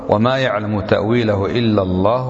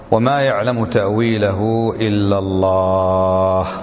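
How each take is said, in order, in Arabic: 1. تستمر القراءة متصلة بعد لفظ الجلالة «الله» دون وقف. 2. تقف القراءة وقفًا تامًا بعد لفظ الجلالة «الله». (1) "قراءة الوصل" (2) "هذه قراءة إيش؟ الوقف"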